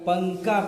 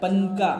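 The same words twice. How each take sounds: First: The n is hidden as a nasal sound. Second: The n is pronounced clearly as a full consonant. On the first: The speaker calls it right. "बल्कि पंका पढ़ता है" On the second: The speaker calls it wrong. "पंका कोई नहीं पढ़ता है"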